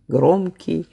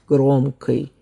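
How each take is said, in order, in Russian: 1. Согласный к перед окончанием мягкий. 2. Согласный к перед окончанием твёрдый. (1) "в Петербурге ... произнося мягкие заднеязычные" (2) "в Москве говорили ... произнося твердые заднеязычные"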